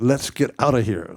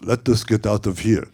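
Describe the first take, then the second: First: Let us is contracted into one syllable. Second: Let us is said as two full words. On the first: The speaker calls it right. "No, I said" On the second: The speaker calls it wrong. "He goes"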